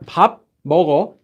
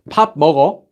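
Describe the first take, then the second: First: The two words are said separately, with a break. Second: The two words are run together without a break.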